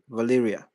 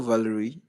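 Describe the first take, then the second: First: The name ends with an 'ah' sound. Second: The name ends with an 'ee' sound. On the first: The speaker calls it right. "I think I've been pronouncing that wrong" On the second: The speaker calls it wrong. "did I say Valerie?"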